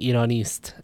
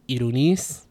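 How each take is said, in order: First: The word ends with an st cluster. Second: The word ends with just an s sound. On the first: "instead of saying ironist" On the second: "the st cluster becomes just s"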